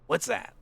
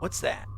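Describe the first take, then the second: First: It is said in a put-on character voice. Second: It is said in his natural voice.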